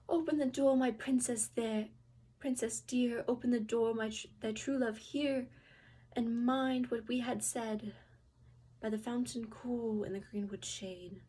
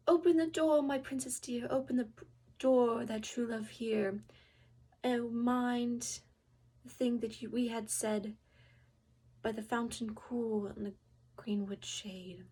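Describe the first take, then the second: First: Calling through door. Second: Loud, sing-song call at the door; calling through door. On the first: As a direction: call again, louder and pleading. Frog knocks again. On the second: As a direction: call out to the princess behind the door. Frog at the door calls. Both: Acted.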